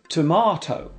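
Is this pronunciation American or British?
British. It is said with a British pronunciation.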